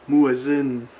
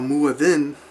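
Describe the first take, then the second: First: The middle consonant is a z sound. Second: The middle consonant is a soft th sound.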